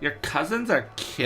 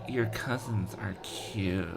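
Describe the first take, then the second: First: It is said in a plain reading voice. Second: It is said in a sultry, phone-sex voice.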